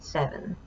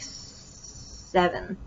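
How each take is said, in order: First: The opening S sound is short and smooth. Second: The opening S sound is drawn out long. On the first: The speaker calls it right. "but it should be seven" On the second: The speaker calls it wrong. "I would pro prolong the voiceless S sound, so then it would sound like seven"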